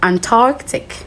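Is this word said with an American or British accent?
American. It is said in an American accent. "Americans will go"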